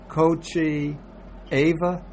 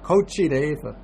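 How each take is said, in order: First: The words meet vowel to vowel with no link. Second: A d sound links the words smoothly together. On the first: The speaker calls it wrong. "That's a little clumsy" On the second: The speaker calls it right. "you put the D and you could just flow in"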